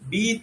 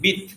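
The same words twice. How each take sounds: First: The vowel is drawn out long. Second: The vowel is kept short. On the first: The speaker calls it wrong. "বিত নয়" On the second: The speaker calls it right. "হ্রস্ব আছে"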